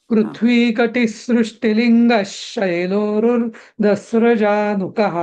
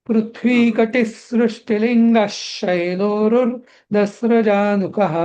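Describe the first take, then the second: Both takes have the same delivery.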